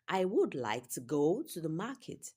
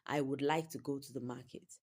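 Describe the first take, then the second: First: Some words get strong stress in a rhythm. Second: All words get even stress, sounding flat. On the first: "better if we emphasize some words" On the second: "It's different from"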